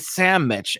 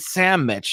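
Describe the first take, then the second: First: The word has a Southern US regional pronunciation. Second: The word has a Southern US regional pronunciation.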